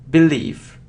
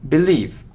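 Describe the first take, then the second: No difference in how they are said.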